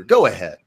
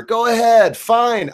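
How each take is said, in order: First: Said in the usual way. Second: Much higher and louder, a defiant yell; exasperated outburst. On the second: Real, not acted. Streamer daring his online critics, in a loud defiant outburst. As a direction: throw it back at them, fed up. Challenging attackers, rising exasperation.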